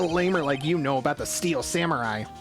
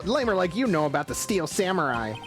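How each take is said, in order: First: It is said in an ordinary character voice. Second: It is said in a bright cartoon-hero kid voice. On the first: The speaker calls it wrong. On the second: The speaker calls it right.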